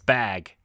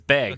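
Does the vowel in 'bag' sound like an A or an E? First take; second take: A; E. First: The vowel sounds like a short A. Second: The vowel sounds like a short E. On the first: The speaker calls it right. "It's bag with an A" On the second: The speaker calls it wrong. "He says bag with a with an E"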